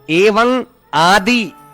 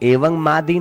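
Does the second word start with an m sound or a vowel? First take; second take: vowel; m sound. First: The second word starts with a vowel. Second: The second word starts with an m sound. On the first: The speaker calls it right. "इस प्रकार पढ़ना चाहिए।" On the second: The speaker calls it wrong. "नहीं"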